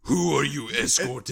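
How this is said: It is asked in a threatening, intimidating tone.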